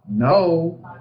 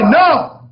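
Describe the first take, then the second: First: The pitch falls at the end. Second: The pitch does not fall at the end.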